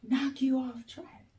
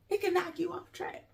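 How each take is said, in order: First: Said in the usual way. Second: A soft, quick, breathy repeat; hushed echo. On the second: Shown as a demonstration. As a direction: drop to near a whisper and let it sink in. Softer echo of the phrase.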